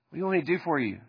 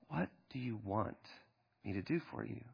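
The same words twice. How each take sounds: First: The question sounds impatient and irritated. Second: The question sounds warm and compassionate. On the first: The asker wants to get this over with. "Is Jesus irritated?" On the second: The asker genuinely cares about the person. "Or is it compassion?"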